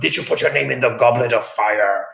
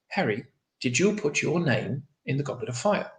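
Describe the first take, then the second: First: Dumbledore's line is screamed loudly and angrily. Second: Dumbledore's line is said quietly and calmly.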